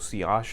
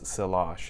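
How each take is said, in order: First: The word is pronounced the French way. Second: The word is pronounced the English way. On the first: "it's a French word, so sillage is a proper pronunciation" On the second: "but you can also hear it as"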